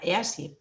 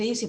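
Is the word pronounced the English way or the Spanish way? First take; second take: Spanish; English. First: It is pronounced with Spanish vowel sounds. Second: It is pronounced like the English word easy. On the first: "si lo dijéramos en español, sería EASY" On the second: "Todo el mundo dice EASY porque lo pronuncia en inglés"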